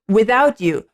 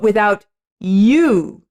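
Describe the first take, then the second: First: The stress falls on the word without. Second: The stress falls on the word you. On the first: The focus is on being without someone. "rather than without" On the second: The focus is on the person addressed. "it's more about you"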